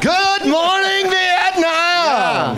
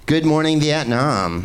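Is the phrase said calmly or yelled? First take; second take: yelled; calmly. First: The phrase is yelled loudly with high energy. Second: The phrase is said at a calm, normal volume.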